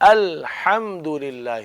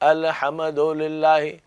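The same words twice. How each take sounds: First: The letter after 'al' is kept silent. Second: The letter after 'al' is given a vowel. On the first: The speaker calls it right. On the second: The speaker calls it wrong.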